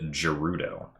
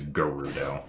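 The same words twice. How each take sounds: First: It begins with a soft J sound. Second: It begins with a hard G sound. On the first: "I personally pronounce that word Gerudo" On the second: "the correct pronunciation, at least based on Breath of the Wild, is Gerudo"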